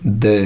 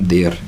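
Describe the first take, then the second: First: The word ends without any r sound. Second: The word ends with an audible r sound. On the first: The speaker calls it right. "आर का उच्चारण नहीं होता, तो देयर को बोलेंगे द" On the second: The speaker calls it wrong. "देयर नहीं होता"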